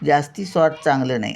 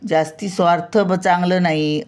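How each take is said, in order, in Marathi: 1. स्वार्थ शब्द शेवटी नुसत्या व्यंजनाने संपतो. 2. स्वार्थ या शब्दाच्या शेवटी एक स्वर जोडलेला आहे. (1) "असं बोलतो आपण" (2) "असं नाही"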